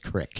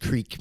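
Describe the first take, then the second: First: The vowel is short, like 'crick'. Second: The vowel is long, like 'creek'. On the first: This is how people say it in that region. "but over there it's creek" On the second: This is how the speaker thought it was said. "I thought it was creek"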